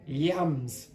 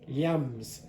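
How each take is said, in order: Both takes have the same delivery.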